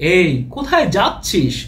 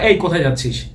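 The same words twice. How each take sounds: First: It is said in an exaggerated, stagey way. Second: It is said in a casual, everyday way. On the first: It sounds like a folk stage play. The speaker calls it wrong. "যাত্রার মতো শোনাচ্ছে না একটু?" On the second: This is how people normally call someone. The speaker calls it right. "Casually ডাকলে"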